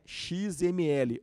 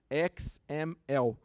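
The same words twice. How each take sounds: First: The letters are named with Portuguese letter names. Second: The letters are named with English letter names.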